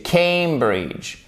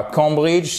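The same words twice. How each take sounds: First: "Cambridge" slowly, with an "ay" diphthong as in oseille; correct pronunciation. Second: "Cambridge" mispronounced without the diphthong; French-style "Cambridge", first vowel not the "ay" sound; wrong pronunciation. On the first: Teacher correcting students, slow "Cambridge" with a clear "ay" diphthong. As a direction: stretch the first vowel of "Cambridge" into "ay". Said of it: "c'est Cambridge". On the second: Teacher showing students the mistake to avoid, mispronounced "Cambridge". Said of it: "c'est pas Cambridge". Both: Shown as a demonstration.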